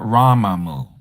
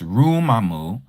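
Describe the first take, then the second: First: The first vowel is an 'ah' sound. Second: The first vowel is an 'oo' sound. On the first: The speaker calls it wrong. "not Ramamu" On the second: The speaker calls it right. "It's Rumamu"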